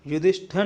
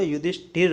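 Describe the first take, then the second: First: युधिष्ठिर ending in "-thar"; incorrect form. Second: युधिष्ठिर ending in "-thir"; corrected form. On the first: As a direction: say युधिष्ठिर as "yudhish-ṭhar". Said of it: "युधिष्ठिर नहीं होता". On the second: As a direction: say युधिष्ठिर as "yudhish-ṭhir". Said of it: "दोनों में छोटी ई". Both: Shown as a demonstration.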